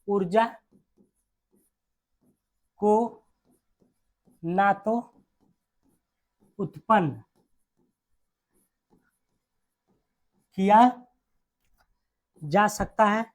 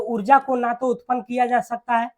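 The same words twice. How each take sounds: First: Word by word, long pauses; dictation. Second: Said in the usual way. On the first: Real, not acted. Teacher dictating the energy law to students, slow dictation. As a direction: dictate very slowly for note-taking.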